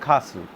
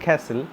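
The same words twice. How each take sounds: First: It is said with a British pronunciation. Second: It is said with an American pronunciation. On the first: "the British people go for castle" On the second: "Americans go for castle"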